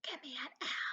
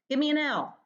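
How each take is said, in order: First: It is said in a whisper. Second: It is said in a normal cheering voice.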